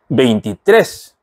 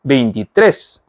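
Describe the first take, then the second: No difference in how they are said.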